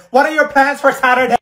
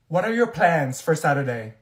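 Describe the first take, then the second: First: High, loud mimicking jeer; mocking imitation. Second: Said in the usual way. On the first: Student imitating loudest classmate, mocking loud voice. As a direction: throw her words back loudly in mockery. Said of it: "You were the loudest one".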